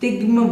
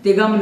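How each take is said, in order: First: The g and m join with no vowel between. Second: A short vowel is inserted between g and m. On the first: The speaker calls it right. "तिग्म बोलना है" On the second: The speaker calls it wrong. "तिगम नहीं"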